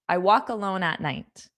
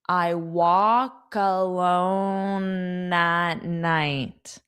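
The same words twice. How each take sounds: First: The sentence is spoken at a fast pace. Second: The sentence is spoken at a slow pace. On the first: "I'll say it again fast" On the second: "Now I'll say it slowly"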